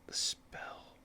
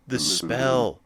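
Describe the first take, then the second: First: Breathy whispered discovery; hushed realization, almost silent. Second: A gasp, then the words said aloud with a falling tune; surprised recognition after a gasp; gasped realization. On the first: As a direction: whisper it to yourself as you notice it. Noticing a dropped item. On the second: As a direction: catch your breath, then name it. Realizing what was dropped. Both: Real, not acted.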